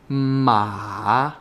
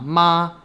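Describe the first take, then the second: First: The pitch dips low and then rises. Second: The pitch does not dip and rise. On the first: It means horse. "Third tone" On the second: It means mom. "the word for mom"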